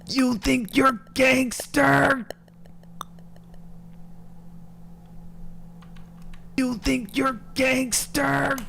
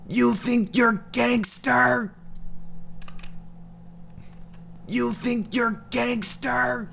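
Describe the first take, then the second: First: It is screamed loudly into the mic. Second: It is said more quietly, without screaming.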